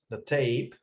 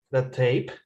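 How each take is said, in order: First: "The tape" said with a falling tune at the end; "The tape" ending low. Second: "the tape" sliding up at the end; "the tape" with a rising tune. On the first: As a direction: let "tape" drop down, as a statement. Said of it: "Actually, not that short". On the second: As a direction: lift "tape" up like a question. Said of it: "But it sounds the tape". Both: Shown as a demonstration.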